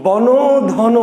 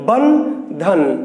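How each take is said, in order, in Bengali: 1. এই অক্ষরগুলো একটি যুক্ত স্বরধ্বনি দিয়ে খোলা অবস্থায় শেষ হয়। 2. এই অক্ষরগুলো শেষের ব্যঞ্জনে বদ্ধ হয়ে শেষ হয়। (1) "বন ধন না" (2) "উচ্চারণটা আটকে যাচ্ছে"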